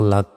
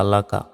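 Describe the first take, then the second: First: লাক ending on a vowelless k; stopping form. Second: লা কা with a voweled "ka" at the end; continuing form. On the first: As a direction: close লাক sharply on "k", no final "a". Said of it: "থামলে শেষ অক্ষরে সাকিন দিয়ে উচ্চারণ করবেন". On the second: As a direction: sound both syllables of লা কা, "la-ka". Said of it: "লাম জবর লা, কাফ জবর কা". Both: Shown as a demonstration.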